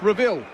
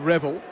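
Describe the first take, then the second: First: The name is pronounced like Reville. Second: The name is pronounced like Revel. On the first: The speaker calls it right. "No, it's Reville" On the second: The speaker calls it wrong. "The mispronounced B. Revel for Breville"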